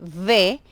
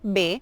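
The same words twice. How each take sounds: First: The letter name has a clear v sound. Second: The letter name sounds like b. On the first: Listeners hear it as the letter V. The speaker calls it right. "debemos hacer la pronuncia perfecta de la V" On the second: Listeners hear it as the letter B. The speaker calls it wrong. "cuando dices V, eh, entienden que es la V de burro"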